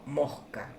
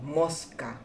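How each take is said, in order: First: The s is a breathy, J-like sound. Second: The s is a clear hissing sound. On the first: "sino mosca. Eh, es decir, que debería escribirse con una J" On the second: "no decimos mosca"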